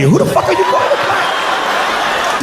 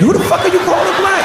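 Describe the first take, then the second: First: High, slow, strangled shout of mock outrage; drawn-out high squeal of comic indignation; strained outraged yell. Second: High mock outraged question; high indignant punchline shout; indignant yell. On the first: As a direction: stretch every word like you're choking on the insult. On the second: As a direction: fire it off as quick comic outrage. First take of the rant line.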